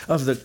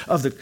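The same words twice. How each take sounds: The two takes are said the same way.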